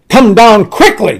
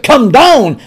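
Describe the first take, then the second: First: Louder, impatient royal order; the king losing patience, push it harder; really mad command. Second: A firm, mildly angry order from the king; angry command. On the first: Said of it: "Now I'm really mad". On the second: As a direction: bark it as the annoyed king, louder. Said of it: "first he was angry". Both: Retold or imitated.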